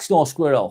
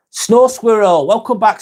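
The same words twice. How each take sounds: First: Said in the usual way. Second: Higher and louder, a bright welcome; greeting a returning viewer warmly by name; excited greeting. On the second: Real, not acted. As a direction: call the name out happily.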